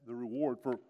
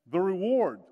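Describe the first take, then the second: First: Said in the usual way. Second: Reward said louder; punching the reward home; louder emphatic repeat. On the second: Real, not acted. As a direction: proclaim the reward, loud and clear.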